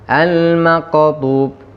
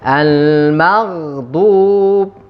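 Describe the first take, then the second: First: The middle consonant is a hard q sound. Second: The middle consonant is a throaty gh sound. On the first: The speaker calls it wrong. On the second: The speaker calls it right.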